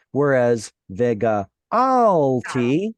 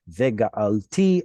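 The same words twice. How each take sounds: First: Vega'alti drawn out slowly, weight on GA, the end lightly rising; slow, stress mid-word. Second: Vega'alti a little slow, final TI stressed and rising; stress at the end. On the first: Teacher contrasting the past form for students, slow with weight on GA. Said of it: "Vega'alti means something different than vega'alti". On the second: Teacher reading the future form to students, final TI stressed. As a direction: land on the last syllable of Vega'alti. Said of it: "the stress is moved over here". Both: Shown as a demonstration.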